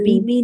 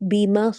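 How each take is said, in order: First: The second syllable ends with an 'i' vowel. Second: The second syllable ends with an 'a' vowel. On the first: The speaker calls it wrong. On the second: The speaker calls it right.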